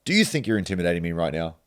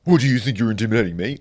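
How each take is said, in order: First: Quick, cool challenge; calm challenge. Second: Higher, louder, quick parroting; mocking echo. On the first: Retold or imitated. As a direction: call his bluff. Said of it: "I said to him". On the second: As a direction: throw the question back, mimicking. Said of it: "And he's like".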